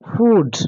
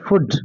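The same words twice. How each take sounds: First: The vowel is said long. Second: The vowel is said short. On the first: The speaker calls it right. "That is food. You can observe long vowel sound oo" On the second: The speaker calls it wrong. "not food"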